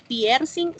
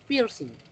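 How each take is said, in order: First: It is read with Spanish letter sounds. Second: It is said with English-like sounds. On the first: The word is read as it is written. The speaker calls it wrong. "No decimos piercing" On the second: The word keeps its foreign pronunciation. The speaker calls it right. "mantenemos su fonología"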